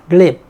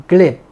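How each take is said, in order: The two takes are said the same way.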